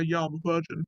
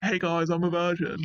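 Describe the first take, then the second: First: Understated, matter-of-fact admission; low-key honest answer. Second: Lightly announcing it to a group; mildly hammed-up announcement, as if volunteering news; mock unprompted announcement. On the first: Acted. Answering someone who asks, low-key and matter-of-fact. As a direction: admit it plainly, only because asked. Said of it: "if someone asks you if you're a virgin, you say". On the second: Telling everyone unasked, as a mild mock announcement. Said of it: "Why would you just announce that?".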